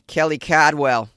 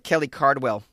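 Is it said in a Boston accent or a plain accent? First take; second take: Boston; plain. First: It is said in a Boston accent. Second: It is said in a plain, non-Boston accent.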